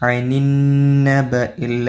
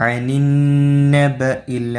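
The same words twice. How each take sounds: The two takes are said the same way.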